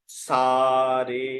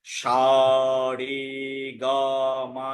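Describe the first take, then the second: First: সা with a clean hissed s, "saa", drawn out; correct sargam pronunciation. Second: সা as "shaa", each note drawn out separately; wrong sargam pronunciation. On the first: Teacher asks what we really say, correct pronunciation. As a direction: stretch "saa, re" for সা রে. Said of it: "কি বলি?". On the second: Teacher shows how not to sing it, wrong pronunciation. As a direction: slowly spell out "shaa re gaa maa" for সা রে গা মা. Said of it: "এরকম বলি না". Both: Shown as a demonstration.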